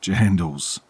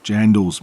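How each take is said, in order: First: Mate, jandals slow and firm; drawn-out corrective jandals. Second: Jandals said loud, falling; stress on Jandals. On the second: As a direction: punch Jandals firmly. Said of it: "mate, jandals". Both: Shown as a demonstration.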